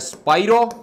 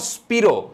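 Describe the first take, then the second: First: The first syllable rhymes with 'eye'. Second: The first syllable rhymes with 'see'. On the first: The speaker calls it right. "इसको कहा जाता है स्पाइरो" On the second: The speaker calls it wrong. "Not स्पीरो"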